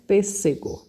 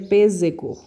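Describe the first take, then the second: First: The middle consonant is a hissing s sound. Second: The middle consonant is a buzzing z sound. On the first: "Mas como usou S S, ficaria, fica, né, pêssego" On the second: "Aqui ficaria pêssego"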